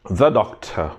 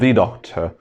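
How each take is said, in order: First: 'The' is said with a short 'thuh' vowel. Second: 'The' is said with a long 'thee' vowel. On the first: The speaker calls it right. "you have to say the if the beginning of the word is with consonant sound" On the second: The speaker calls it wrong. "not the doctor"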